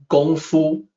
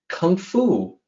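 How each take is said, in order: First: The first word begins with a G sound. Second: The first word begins with a K sound. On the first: The speaker calls it right. "with a G sound" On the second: The speaker calls it wrong. "A familiar term"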